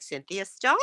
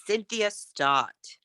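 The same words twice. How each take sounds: First: "Stott" lifted up like a question; rising tune. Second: "Stott" dropped down like a full stop; falling tune. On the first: Coach showing how women tend to introduce themselves, rising tune. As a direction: let "Cynthia Stott" end on a rise at Stott. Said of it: "we tend to go up". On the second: Coach contrasting with the upward habit, falling tune. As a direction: say "Cynthia Stott" slowly, falling on Stott. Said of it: "So try to go down". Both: Shown as a demonstration.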